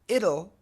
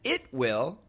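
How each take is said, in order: First: It is said as one short contracted word. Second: It is said as two full separate words.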